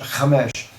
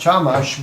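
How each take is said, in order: First: The name is said in the Hebrew way. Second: The name is said in an English-style way. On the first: This is the Hebrew pronunciation. "in Hebrew we pronounce it Chamesh" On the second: This is how the name's bearer says it. "Barry calls his last name Chamash"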